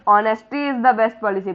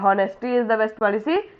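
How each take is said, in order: First: The first word begins with a vowel, h silent. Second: The first word begins with an audible h sound. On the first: The speaker calls it right. "पढ़ते हैं" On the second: The speaker calls it wrong. "नहीं पढ़ते हैं"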